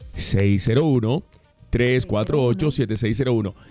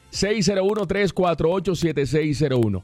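First: The numbers are said slowly. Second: The numbers are said fast.

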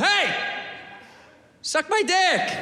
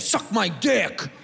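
First: It is said in a nice, friendly tone. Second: It is said in a hostile, negative tone.

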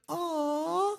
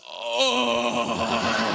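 First: It is said in a soft, smooth voice. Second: It is said in a coarse, rough voice.

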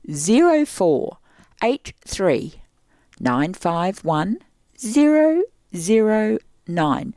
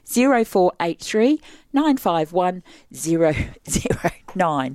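First: It is said slowly. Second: It is said quickly.

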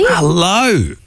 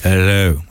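First: The greeting sounds forceful and aggressive. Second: The greeting sounds softer and gentler.

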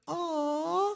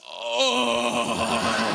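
First: It is said in a soft, smooth voice. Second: It is said in a coarse, rough voice.

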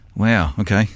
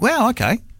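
First: It sounds let down and disappointed. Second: It sounds supportive and encouraging.

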